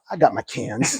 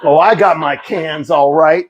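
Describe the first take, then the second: First: Low, soft aside; understated triumph. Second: Mock tough-guy boast. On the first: Retold or imitated. Man walking back with his cans, low quiet triumph. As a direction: say it quietly under your breath. Walks back relieved, wife watching. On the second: Husband boasting to wife about the cans, mock tough. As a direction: say it with put-on swagger. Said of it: "I was a tough guy".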